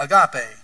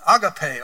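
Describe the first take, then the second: First: Agape in an East Tennessee accent. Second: Said in the usual way. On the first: Shown as a demonstration. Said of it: "In our East Tennessee accent, we say".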